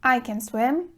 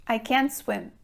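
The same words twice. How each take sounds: First: "can" said weak and quick, stress on "swim"; can unstressed. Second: "can't" stressed and falling. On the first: Teacher repeating "I can swim" with "can" unstressed. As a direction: keep "can" light. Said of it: "the verb can remains unstressed". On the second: Teacher repeating "I can't swim" with "can't" stressed. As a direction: hit "can't" clearly. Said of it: "we emphasize the verb can't". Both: Shown as a demonstration.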